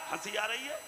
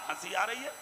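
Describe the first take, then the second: No difference in how they are said.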